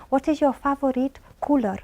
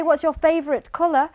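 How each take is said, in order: First: Slowed down with every word separate; slow careful question. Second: Quick, natural run-together question; normal-speed question. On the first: Examiner slowing down for a young boy, careful and slow. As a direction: spell it out slowly for a seven-year-old. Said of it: "sometimes I have to say". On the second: Examiner asking a seven-year-old at natural speed. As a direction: ask it as a native speaker would. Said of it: "But if I say". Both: Shown as a demonstration.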